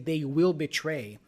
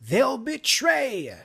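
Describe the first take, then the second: First: The two words are said fully and separately. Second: The two words are merged into one syllable. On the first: The speaker calls it wrong. "They say they will betray in this case" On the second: The speaker calls it right. "make sure you say they'll in this case"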